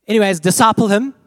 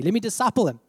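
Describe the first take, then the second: First: "disciple" punched louder, rising; emphatic disciple. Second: Said in the usual way. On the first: Shown as a demonstration. Preacher stresses "disciple" to the congregation, loud and rising. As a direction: hit "disciple him" hard and loud.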